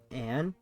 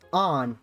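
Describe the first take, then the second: First: The vowel sounds like the one in 'can'. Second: The vowel sounds like the one in 'con'. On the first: The speaker calls it wrong. "not Anne" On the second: The speaker calls it right. "It's on, not Anne, correct?"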